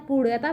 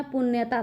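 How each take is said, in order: First: पुण्यता said as "puṛyata" with a flapped ड़; पुण्यता with a retroflex flap; read with ड़ sound. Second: पुण्यता said as "punnata" with a doubled n; पुण्यता with a long n sound; read with n sound. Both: Shown as a demonstration. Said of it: "इसको हम दो तरीके से पढ़ सकते हैं".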